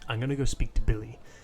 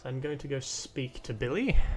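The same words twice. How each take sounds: First: It is said in a put-on character voice. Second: It is said without the put-on character voice. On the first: The speaker calls it right. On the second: The speaker calls it wrong.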